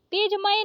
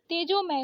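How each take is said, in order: First: तेजमय as tej-may; no vowel o after j in तेजमय; wrong missing ओ. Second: तेजोमय as tejo-may; correct ओ. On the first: Teacher showing the mistake, तेजमय without o. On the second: Teacher correcting it, तेजोमय with o. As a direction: round the o in तेजोमय. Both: Shown as a demonstration. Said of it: "तेजमय नहीं तेजोमय".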